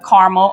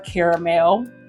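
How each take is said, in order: First: It is said in a plain, everyday way. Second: It is said in a fancier, more refined way.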